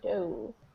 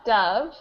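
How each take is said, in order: First: The vowel is a long 'oh' sound. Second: The vowel is a short 'uh' sound. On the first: It is the past tense of dive. "the second one we've got O" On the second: It names a bird. "in the first one we've got an uh"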